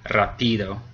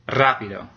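First: The stress is on the middle syllable. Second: The stress is on the first syllable. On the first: The speaker calls it wrong. "The middle one would be rápido, which isn't a word" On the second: The speaker calls it right. "That's the accent mark is over the A"

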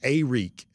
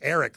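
First: The name does not sound like plain Eric. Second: The name sounds exactly like plain Eric. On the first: "I'm here to tell you it's Arik" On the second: "like the name Eric"

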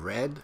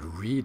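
First: It is said as the past tense form. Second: It is said as the present tense form. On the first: The action happened in the past. The speaker calls it right. "instead of read" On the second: The action is happening now or habitually. The speaker calls it wrong. "He said read instead of"

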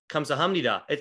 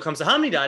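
First: The pitch stays flat across the word. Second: The pitch moves up and down across the word. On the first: The speaker calls it right. "there's no inflections. It's just very" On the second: The speaker calls it wrong. "But I go"

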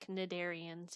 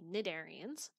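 First: The word starts with a hard K sound. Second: The word starts with an N sound. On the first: The speaker calls it wrong. "You don't say cnidarians" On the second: The speaker calls it right. "with a silent C. ... you say cnidarians"

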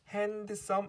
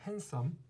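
First: The d sound is pronounced in the middle. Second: The d sound is silent in the middle. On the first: The speaker calls it wrong. "핸드썸 아니죠" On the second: The speaker calls it right. "D가 소리 안 나요"

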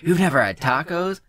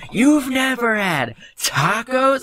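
First: It is said at the softest volume. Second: It is said at the loudest volume.

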